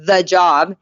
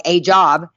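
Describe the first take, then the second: First: "the" stressed and drawn out before "job". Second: "a" said as a separate, stressed "ay" before "job". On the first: Hopeful newcomer describing a dream job, stress on "the". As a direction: lean slowly on "the", as the one and only. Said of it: "I thought that it was, like, the job". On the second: Newcomer let down by the new job, stress on "a". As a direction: lean on "a", as just one of many. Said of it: "I felt like a job". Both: Shown as a demonstration.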